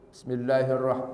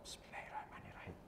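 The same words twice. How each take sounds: First: The phrase is recited loudly and clearly. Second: The phrase is recited so softly it is barely heard. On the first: "ada yang dikeraskan" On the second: "Ada yang kedengaran cuma hamzah"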